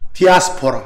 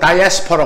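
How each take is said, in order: First: It is said with a Korean pronunciation, starting 'di'. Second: It is said with an English pronunciation, starting 'dai'.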